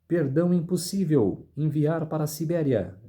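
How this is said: The pause comes after the word impossível. Pardon is refused and the person is sent to Siberia. "perdão impossível, vírgula, enviar para a Sibéria"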